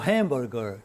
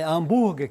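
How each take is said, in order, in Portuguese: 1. A palavra é falada com pronúncia inglesa. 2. A palavra é falada com pronúncia portuguesa. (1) "que é em inglês" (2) "mas é hambúrguer, a pronúncia é diferente"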